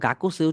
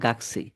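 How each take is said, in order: First: The middle u vowel is fully pronounced. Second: The middle u vowel is dropped, said quickly.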